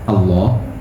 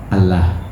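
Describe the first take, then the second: First: The L is heavy and dark, with a full back vowel. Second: The L is light and thin, with a front vowel. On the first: The word names the personal being of God. "ada yang bacanya mufakham" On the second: The word symbolises something other than the personal name. "ada yang dibaca muraqqaq"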